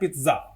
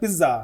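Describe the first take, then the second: First: The middle consonant is a ts sound. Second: The middle consonant is a plain z sound. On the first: This is the actual original pronunciation. "असल में उच्चारण होता है पित्ज़ा" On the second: This is the name as commonly used. "पिज़्ज़ा का नाम तो है पिज़्ज़ा"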